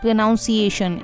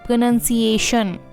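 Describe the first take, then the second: First: The second syllable sounds like 'nown'. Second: The second syllable sounds like 'nun'. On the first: The speaker calls it wrong. "Not प्रोनाउंसिएशन" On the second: The speaker calls it right. "इसे हम बोलते हैं प्रोनंसिएशन"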